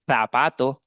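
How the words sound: It is said with a Spain Spanish accent. "the Spanish for people from Spain, I think they are the only one who say the letter C and the letter Z with"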